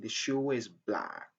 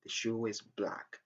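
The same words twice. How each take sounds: First: A linking sound joins shoe and is smoothly. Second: The same.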